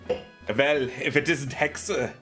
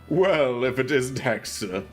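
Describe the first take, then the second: First: It is read in a put-on German accent. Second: It is read in a plain, unaccented voice.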